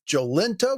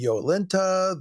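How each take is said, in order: First: The word begins with a j sound. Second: The word begins with a y sound. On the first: "rendered as the English J" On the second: "being pronounced like an English Y"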